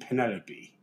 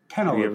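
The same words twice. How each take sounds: First: The name ends with a 'pee' sound. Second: The name ends with a 'lope' sound. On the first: The speaker calls it right. "I believe you mean Penelope" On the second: The speaker calls it wrong. "Is that a species of cantaloupe?"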